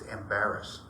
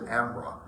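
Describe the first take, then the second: First: It is said like the word 'embarrass'. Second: It is said as two syllables, 'am-braw'. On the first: This is how the spelling reads. "when you read it, it looks like it's it's Embarrass" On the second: This is how locals say it. "but they pronounce it Ambraw"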